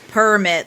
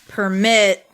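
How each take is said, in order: First: The stress is on the first syllable. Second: The stress is on the last syllable. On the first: It is used as a noun. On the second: It is used as a verb.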